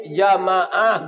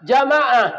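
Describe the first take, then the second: First: Said in the usual way. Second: High, loud call to the crowd. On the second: Acted. Preacher calling out to the congregation, loud and high.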